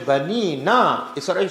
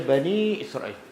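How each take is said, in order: First: An extra 'na' syllable follows 'Bani'. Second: 'Bani' runs straight into 'Israel'. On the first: The speaker calls it wrong. "Kalau saya baca Bani Na Israel, salah" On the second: The speaker calls it right. "Kena baca Bani Israel"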